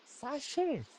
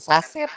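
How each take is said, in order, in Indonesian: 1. Dibaca seperti bahasa Prancis, dengan bunyi "sh". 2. Dibaca seperti bahasa Indonesia "saset", dengan bunyi s.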